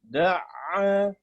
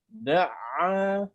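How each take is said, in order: The two takes are said the same way.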